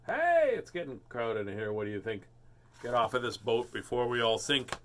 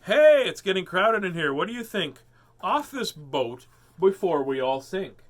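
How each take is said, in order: First: Said in the usual way. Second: Higher, louder, urgent storybook line; animated voice of a boat passenger; character voice. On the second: Acted. Character line from book, repeated.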